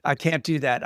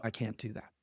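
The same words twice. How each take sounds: First: Said in the usual way. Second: Dropped to a near-murmur, much softer; quiet refusal. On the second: Retold or imitated. To his agent, refusing to boast in meetings, very soft. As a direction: pull back, almost under your breath.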